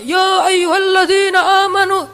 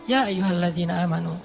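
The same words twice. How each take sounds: First: The phrase is said loudly, like a shout. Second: The phrase is said softly and calmly. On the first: The speaker calls it wrong. "Kadang kita ya ayyuhalladzina amanu, tergantung khotibnya" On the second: The speaker calls it right. "tapi santai turunnya"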